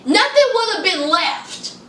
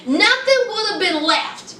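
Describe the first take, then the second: No difference in how they are said.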